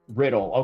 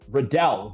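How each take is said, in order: First: It sounds like the word riddle. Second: It sounds like it rhymes with Liddell. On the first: The speaker calls it wrong. "Riddle, not Riddle" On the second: The speaker calls it right. "rhymes with Liddell"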